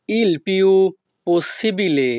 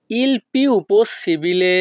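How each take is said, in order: First: Said in the usual way. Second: "il più possibile" slowly, each word apart; slow repeat. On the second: Shown as a demonstration. Teacher repeating for students, slow and careful.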